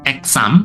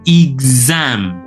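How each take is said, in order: First: The x is said with an s sound. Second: The x is said with a z sound. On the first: The speaker calls it wrong. "Bukan exam; Jadi tidak S" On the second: The speaker calls it right. "tetapi exam, Z, Z ya"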